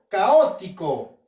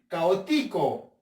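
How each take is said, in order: First: The stress is on the second syllable, o. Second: The stress is on the third syllable, ti. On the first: The speaker calls it right. "Con la o" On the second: The speaker calls it wrong. "Vamos a ver con la ti"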